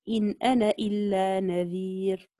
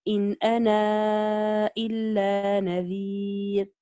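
First: The vowel ending 'ana' is short, not lengthened. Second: The vowel ending 'ana' is stretched extra long. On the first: "وجه الحذف" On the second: "وجه التوسط"

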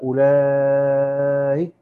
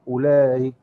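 First: The vowel before the hamza is held long. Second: The vowel before the hamza is kept short. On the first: "يبقى بالإشباع والقصر، لأنه هنقدم الإيه؟ الإشباع" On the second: "التسهيل مع المد والقصر"

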